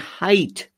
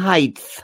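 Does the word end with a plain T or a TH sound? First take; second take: plain T; TH. First: The word ends with a plain T sound. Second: The word ends with a TH sound. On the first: The speaker calls it right. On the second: The speaker calls it wrong.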